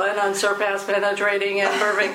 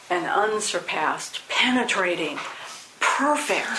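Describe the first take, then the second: First: It is read plainly without added feeling. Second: It is read with expressive feeling and emphasis. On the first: The words are treated as nothing special. "no, it's not special" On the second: The words are treated as something special. "we want to read it with feeling"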